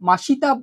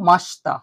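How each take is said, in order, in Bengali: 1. 'sh' আর 't'-এর মাঝের i স্পষ্টভাবে উচ্চারিত হয়। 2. 'sh' আর 't'-এর মাঝের i বাদ যায়। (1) "মাসিতা বলবে না" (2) "এটা তোমরা উচ্চারণ করো মাস্তা"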